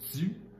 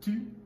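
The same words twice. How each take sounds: First: The t has a hissing sound added. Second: The t is plain, with no hiss. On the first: This is the Quebec French sound. "devient tu" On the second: This is the international French sound. "le son tu"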